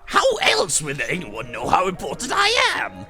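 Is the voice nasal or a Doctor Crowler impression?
Crowler impression. It is said in a Doctor Crowler voice.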